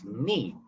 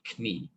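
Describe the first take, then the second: First: The K sound is silent at the start. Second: The K sound is pronounced at the start. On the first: The speaker calls it right. "it's ni, because it's a silent K" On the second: The speaker calls it wrong. "It's not kni"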